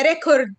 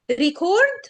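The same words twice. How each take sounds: First: ريكورد as REC-ord; first-syllable stress. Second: ريكورد as ri-CORD; long stressed second syllable in ريكورد. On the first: Teacher offering second option to class, REC-ord with front stress. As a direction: punch the first syllable of ريكورد, weak ending. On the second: Teacher offering first option to class, ri-CORD with end stress. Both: Shown as a demonstration. Teacher contrasts two pronunciations.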